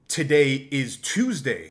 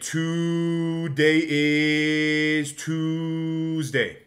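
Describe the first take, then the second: First: Each word's first vowel has normal length. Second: Each word's first vowel is drawn out long. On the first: "instead of saying today is Tuesday" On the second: "you lengthen the first vowel of every word"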